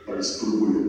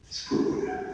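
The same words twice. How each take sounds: First: Said in the usual way. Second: A soft unvoiced whisper trailing away. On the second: Preacher to the women, whispering the last try. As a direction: let the word fade into a breath. Third repeat fades to breath.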